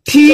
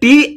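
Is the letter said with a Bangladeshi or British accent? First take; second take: British; Bangladeshi. First: The T is said with a strong puff of air. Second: The T is said plainly, without a puff of air. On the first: "ব্রিটিশরা এটাকে কি বলে? ঠি বলে" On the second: "এটাকে আমরা বলি টি"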